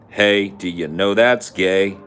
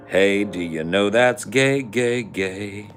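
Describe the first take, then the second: First: Slow, loud, higher taunt; mock taunt. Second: Sung, sing-song taunt. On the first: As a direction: drag it out like a playground jeer. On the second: Pretend. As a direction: chant it like a schoolyard tease.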